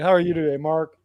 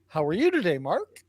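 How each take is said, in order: First: The pitch falls at the end. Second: The pitch rises at the end. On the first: It sounds like an accusation. The speaker calls it wrong. "That's an accusation. ... It has to go up at the end, not down" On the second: It is a genuine question. The speaker calls it right. "Goes up at the end. It's a question"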